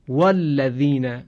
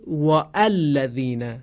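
First: The glottal stop before 'al' is dropped. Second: The glottal stop before 'al' is pronounced. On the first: The speaker calls it right. "همزه وصل خوانده نمیشه" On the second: The speaker calls it wrong. "شما هیچ قاری قرآنی ندیدید مثلا بخوانه والذین"

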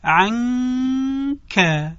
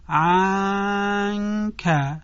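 First: The nasal hum before the k is drawn out. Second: The vowel before the n is drawn out. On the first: The speaker calls it right. "صحیح آن است که ما صدای غنه رو بکشیم" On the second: The speaker calls it wrong. "نباید ما صدای فتحه رو بکشیم... یعنی بگیم عنکه"

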